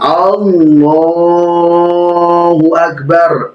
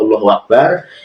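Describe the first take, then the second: First: It is said loudly. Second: It is said quietly.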